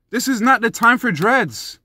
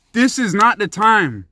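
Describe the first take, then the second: First: Said in the usual way. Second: "This" hit hard, every word slowed and spaced; slow emphatic repeat. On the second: Shown as a demonstration. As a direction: lean on "This" and drag the line out slowly.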